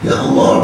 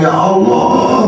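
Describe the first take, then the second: First: "Ya Allah" whispered, breathy and unvoiced; whispered plea. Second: "ya Allah" voiced higher and slowly stretched; drawn-out lament. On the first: Preacher voices a worried sinner whispering "Ya Allah". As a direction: breathe "Ya Allah" like a secret confession. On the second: Preacher voices a worried sinner drawing out "ya Allah". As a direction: draw "ya Allah" out like a sigh of regret. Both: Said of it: "ada yang satu stres".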